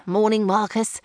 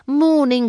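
First: Said in the usual way. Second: Called over the shoulder, louder and higher; cheery greeting called to a neighbour. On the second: A narrator's reading. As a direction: call it across the driveway. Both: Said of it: "he had called over his shoulder".

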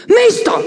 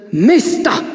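First: Very high, loud sharp call; more energetic shout. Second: Sepulchral voice. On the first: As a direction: bark the command harder. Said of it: "ruft Vera energischer". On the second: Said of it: "sagt mit Grabesstimme". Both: Acted.

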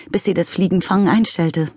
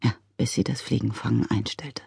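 First: Said in the usual way. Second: Lower, softer gloomy repeat of "Ja, bis sie das Fliegenfangen einstellte". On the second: A narrator's reading. Father gloomily repeating his daughter's words, low and soft. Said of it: "wiederholte Mister McCrumpet düster".

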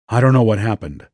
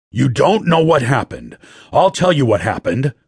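First: Said in the usual way. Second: Higher, incredulous throwing back of words; angry echo. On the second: A narrator's reading. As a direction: repeat it back at him, angry and scornful. Boss throws words back angrily.

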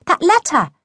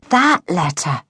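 First: High, insistent reminder; emphatic, pitched-up hint; impatient prompt. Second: THAT letter, said slowly as it dawns; sheepish recognition on THAT letter; dawning realisation. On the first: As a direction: prompt a forgetful friend pointedly. Girl prompts forgetful friend impatiently. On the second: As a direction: lean on THAT as you finally remember. Boy realises which letter is meant. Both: A narrator's reading.

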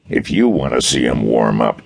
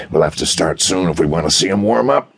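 First: "you" leaned on, mildly sour correction; sour stress on you. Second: Said in the usual way. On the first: A narrator's reading. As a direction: correct him sourly by hitting "you". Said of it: "Desher corrected him sourly". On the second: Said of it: "Desher corrected him".

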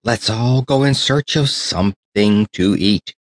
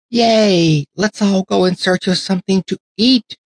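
First: Said in the usual way. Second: Much higher, squealing cheer of many dolls; excited cheer. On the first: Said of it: "cried the tin soldier". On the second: Acted. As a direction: whoop it back as a happy crowd. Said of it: "cried all the other dollies".

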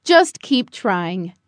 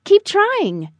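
First: Low, slow fatherly voice; encouraging father. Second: Higher, lilting motherly voice; encouraging mother. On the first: Father to Buddy practicing flying, calmly encouraging. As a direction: encourage steadily, low and drawn out. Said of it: "Father said". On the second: Mother to Buddy as he improves, brightly encouraging. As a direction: cheer him on, higher and falling at the end. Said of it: "Mother said". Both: A narrator's reading.

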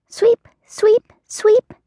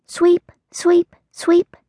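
First: Chanted, very high squeaky sing-song; squeaky mouse chant. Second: High sing-song chant; chanted sweeping. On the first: Mouse sweeping her house. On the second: Mole sweeping his hole. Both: Acted.

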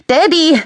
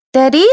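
First: Put-on very high, loud child's cry; piercing child's shout for father; little boy screaming. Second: Put-on high, loud questioning child's call; high-pitched child asking for father; little boy. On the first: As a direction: shout it as a child, falling at the end. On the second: Small boy calls his father. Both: A narrator's reading.

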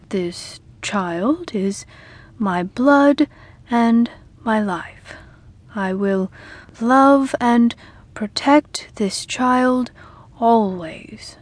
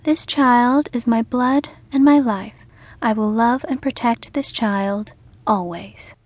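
First: Very slow, halting vow; slow reluctant ritual vow, softening to a whisper. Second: Sweet firm vow. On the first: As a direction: drag each word of the vow out. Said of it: "Sam said slowly". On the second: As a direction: say it firmly and gently. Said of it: "in her sweet, firm voice". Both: A narrator's reading.

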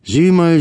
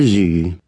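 First: Much higher, a sudden eager "Sieh mal"; excited pointing out. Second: Said in the usual way. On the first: Acted. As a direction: jump up high on "Sieh mal" to draw attention. Mourner points out the girl. (Trauergast zeigt auf Erika, aufgeregt und viel höher)

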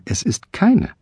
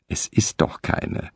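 First: Much higher, insistent; shrill contradiction. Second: Whispered, without looking up; quiet dismissal. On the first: Wife contradicts her husband, much higher. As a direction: squeak out the denial. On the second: Wife knitting mutters to her husband, whispered. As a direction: brush him off under her breath. Wiederholte die Frau. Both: Acted.

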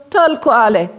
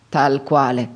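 First: High, raised-voice answer; high, insistent echo of sameness; emphatic confirmation. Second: Understated, final-sounding reply; subdued confirmation. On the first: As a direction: answer emphatically, pitch well up. Emphatic answer about himself. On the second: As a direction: drop the pitch to close the matter. Subdued answer about late father. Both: A narrator's reading.

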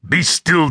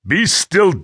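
First: Higher, taunting echo of his words; Scottish hero mocking the pinned attacker. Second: Angry command. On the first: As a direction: throw his own line back at him. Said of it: "and mocked him". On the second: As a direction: bark it down at her. Attacker pins the woman down. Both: A narrator's reading.

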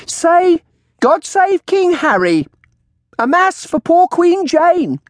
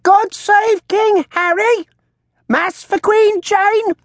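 First: High, loud, drawn-out prompting; shrill crone command. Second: Very high, slow parrot squawk; talking bird. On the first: Old woman prompting her bird to speak, shrill. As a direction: coax a bird to repeat, shrilly. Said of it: "she called out". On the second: Bird mimicking the old woman, shrill squawk. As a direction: squawk it back like a shrill crone. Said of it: "in a voice very like the woman's own". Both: A narrator's reading.

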